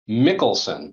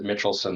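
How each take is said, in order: First: The middle consonant sounds like k. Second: The middle consonant sounds like ch. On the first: This is how some relatives say the name. "relatives ... who pronounce their name, um, Mickelson" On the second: This is a common way others say the name. "people often pronounce it Mitchelson"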